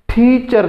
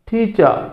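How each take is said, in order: First: The final r sound is pronounced. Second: The final r is dropped, British style.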